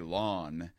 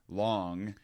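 First: The word ends with a plain n sound. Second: The word ends with a clear ng sound. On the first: The speaker calls it wrong. "I wouldn't pronounce the ing. I would say lawn, like sounding like a yard" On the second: The speaker calls it right. "instead of saying something as long rather than short"

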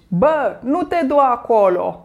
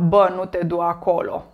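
First: It is said intensely, with passionate exclamatory intonation. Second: It is said flatly, like a robot, without feeling. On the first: The speaker calls it right. "Așa mai pasional, mai intens, mai amplificat" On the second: The speaker calls it wrong. "nu vorbiți așa ca niște roboți de genul"

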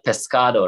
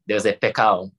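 First: The s and d sounds are fully pronounced. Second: The s and d sounds are dropped. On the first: "instead of pescado" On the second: "They would say pecao. ... they took off the D, they took off the S"

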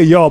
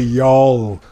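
First: The word is said short and clipped. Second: The word is drawn out long, Southern style. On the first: This is how the speaker's own community says it. "We say y'all" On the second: This is how people from down south say it. "It's a longer draw with them"

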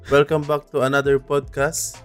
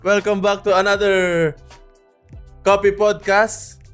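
First: It is said flatly, with low energy. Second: It is said brightly, with high energy.

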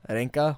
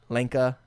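First: The name begins with an R-like sound. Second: The name begins with a clear L sound.

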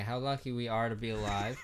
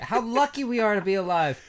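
First: It is said flatly, without much enthusiasm. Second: It is said with more enthusiasm.

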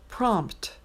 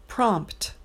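No difference in how they are said.

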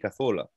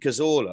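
First: The name is said with Spanish sounds. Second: The name is said with English sounds. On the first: "I'll say Santi Cazorla, ... but only to a Spanish person" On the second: "I won't say Santi Cazorla"

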